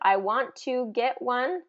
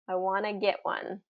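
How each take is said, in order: First: Each word of 'want to' is said separately. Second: 'Want to' blends together into 'wanna'. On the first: "instead of I want to get one" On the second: "is typically I wanna"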